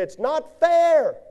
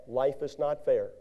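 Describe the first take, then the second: First: High, slow, whining it's not fair; a hurt churchgoer whining about unfairness; whiny complaint. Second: Said in the usual way. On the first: Retold or imitated.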